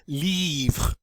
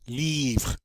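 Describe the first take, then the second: First: The word stops on the R sound. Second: The same.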